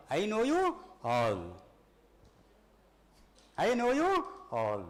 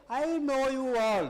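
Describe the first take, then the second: First: I know you all, slow with you stressed and falling; slow quoted line. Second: Slow, weighty I know you all; slow quoted line. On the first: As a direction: lean on you, let it fall. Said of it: "that's all". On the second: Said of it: "you know what he says?". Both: Acted.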